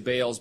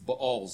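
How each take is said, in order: First: The word has its common English pronunciation. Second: The word has its Hebrew pronunciation. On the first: "We say Baals" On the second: "but in proper Hebrew, it's Baals"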